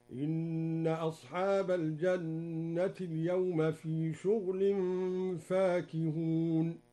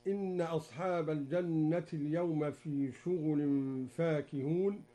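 First: Slow chanted recitation with شغل said shughl, the ghain unvowelled; Duri reading, recited. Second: Said in the usual way. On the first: Shown as a demonstration. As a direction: shughl with a silent ghain, drawn out. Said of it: "هكذا". (شغل بسكون الغين بترتيل بطيء) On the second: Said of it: "قرأ الدوري بسكون الغين".

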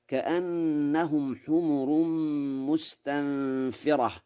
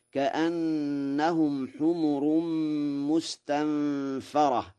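First: Slow recitation, "مستنفرة" as mustanfirah; kasra on fa. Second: Slow recitation, "مستنفرة" as mustanfarah; Warsh fatha on fa. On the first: Teacher recites the verse slowly, "مستنفرة" as mustanfirah with kasra. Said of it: "وقراءة الكسر بمعنى نافرة". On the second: Teacher recites Warsh's reading slowly, "مستنفرة" as mustanfarah with fatha. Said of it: "بفتح الفاء". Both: Shown as a demonstration.

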